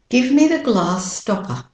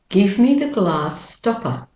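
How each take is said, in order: No difference in how they are said.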